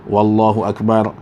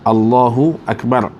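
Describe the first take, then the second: First: It begins with an added w sound. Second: It begins directly with the vowel sound. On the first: The speaker calls it wrong. "kalau ditambahkan waw di sebelumnya" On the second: The speaker calls it right. "tidak boleh tambah apa-apa huruf sebelum dan selepas"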